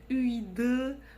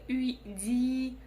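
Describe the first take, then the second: First: The final vowel sounds hard, like ы. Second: The final vowel sounds soft, like и. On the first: "Буква «ы» будет звучать очень твердо" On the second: "Буква «и» будет очень мягкая"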